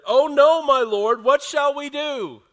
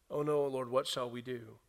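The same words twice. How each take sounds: First: Loud, high cry of alarm; panicked servant. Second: Said in the usual way. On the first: Acted. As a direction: cry out in terror at the army. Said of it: "this is the words of the servant". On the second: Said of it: "the servant asked".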